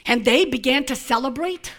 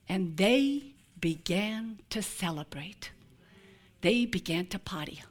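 First: Said in the usual way. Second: Hushed whisper. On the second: Acted. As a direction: let the words fall to a secret hush. Jesus's line read as a hush.

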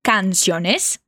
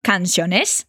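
First: Canciones with a rising question tune and an open A, S sound. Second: Canciones with the Spain-style th sound, rising like a question; spanish lisp. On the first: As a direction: ask Canciones with a wide open A and lift at the end. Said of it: "atenção na entonação de pergunta e na pronúncia do A bem aberto". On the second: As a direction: say Canciones with the Castilian th. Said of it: "no diálogo ela diz canciones". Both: Shown as a demonstration.

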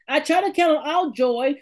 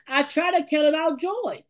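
First: Preached out with force on count; emphatic. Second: Said in the usual way. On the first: Shown as a demonstration. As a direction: call it out like a preacher. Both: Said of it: "repeats it with force".

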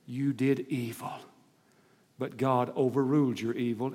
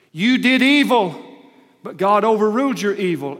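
First: Softer, gentle telling as Joseph; hushed, tender Joseph to his brothers; Joseph's verdict, quiet. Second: High, loud, slowed declaration as Joseph; booming preacher voicing Joseph; Joseph's verdict, loud. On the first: Acted. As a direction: say it softly, like a brother forgiving. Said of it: "And Joseph says". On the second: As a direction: thunder it out as Joseph confronting his brothers. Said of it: "Joseph said".

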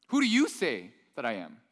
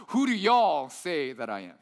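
First: Said in the usual way. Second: Put-on slow, drawling Texas accent on Who do y'all say that I am; a preacher putting on a Texas accent for Jesus's question; Texas version. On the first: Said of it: "in Greek, the Texas version". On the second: Preacher voicing Jesus's question to disciples in a Texas accent. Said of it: "the Texas version".

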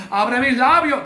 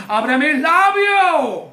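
First: Said in the usual way. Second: Drawn-out cry to God; slow, fervent preacher's shout; shouted plea. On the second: Shown as a demonstration. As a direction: cry out to the Lord, stretching it. Repeats prayer as a loud cry.

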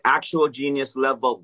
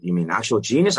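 First: Firm stress on "Actual"; emphatic confirmation. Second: Questioning rise on "genius"; incredulous question. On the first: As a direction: assert it as fact, leaning on "Actual" with no question. Teller confirms it emphatically to dad. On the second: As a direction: ask it in disbelief, lifting "genius" at the end. Dad doubts son is a genius. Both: Retold or imitated.

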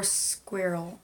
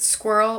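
First: Squirrel as "SKWEER-ul"; second pronunciation. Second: Squirrel as "SKWURL"; first pronunciation. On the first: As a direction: stretch an ee into squirrel. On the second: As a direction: squash squirrel into one r-coloured syllable. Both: Shown as a demonstration. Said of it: "is it squirrel or squirrel".

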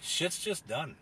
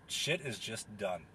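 First: Said in the usual way. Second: Slow quotable line. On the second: Shown as a demonstration. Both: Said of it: "if I had one quote I could tell anyone".

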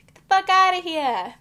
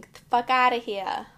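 First: Full-throated shout, pitched higher; shouted catchphrase. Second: Loud, punchy catchphrase. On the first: Teasing her cousins with a higher shouted catchphrase. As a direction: yell it at your cousins for a laugh. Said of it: "That's, like, my saying". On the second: Telling the cousins off in a booming catchphrase. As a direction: belt it out for the cousins. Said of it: "And I say this saying". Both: Shown as a demonstration.

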